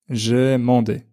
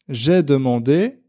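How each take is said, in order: First: The 'de' syllable is dropped. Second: The 'de' syllable is fully pronounced.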